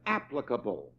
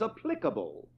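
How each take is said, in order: First: The word is said with an American pronunciation. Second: The word is said with a British pronunciation. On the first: "or if you're American" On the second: "as the British would say"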